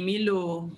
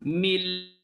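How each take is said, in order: First: The word ends with a sounded vowel. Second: The word ends sharply on the consonant. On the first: The speaker calls it wrong. "Jangan bunyi milo" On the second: The speaker calls it right. "Bunyinya ialah mil"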